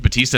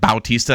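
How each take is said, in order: First: The first syllable sounds like 'ba'. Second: The first syllable sounds like 'bow'. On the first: "his name's Batista" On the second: "they're like Bautista, ... that's probably the way to pronounce that"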